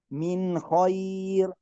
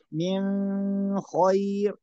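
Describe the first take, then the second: First: Slow recitation, short N in "من"; no hum on "من"; correct clear nun. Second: "من" with a long hummed N; wrong held nun. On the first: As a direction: go straight from "من" into "خير". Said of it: "لا نقول من". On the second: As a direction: hold the end of "من" before "خير". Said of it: "هذا خطأ". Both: Shown as a demonstration.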